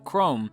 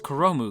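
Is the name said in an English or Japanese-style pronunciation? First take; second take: English; Japanese. First: It is one syllable, with English sounds. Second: It is three syllables, with Japanese-style sounds. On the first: The speaker calls it right. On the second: The speaker calls it wrong.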